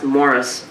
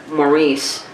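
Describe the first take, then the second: First: The name is said the Canadian way. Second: The name is said the American way. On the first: "because he's Canadian, it's probably pronounced Morris" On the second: "Maurice is how I pronounce it, being American"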